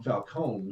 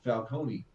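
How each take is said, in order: First: The final E is silent. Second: The final E is sounded as a syllable. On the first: This is the name as said on the show. "with no E at the end" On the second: This is the name as usually heard before. "I've always heard him called Falcone before"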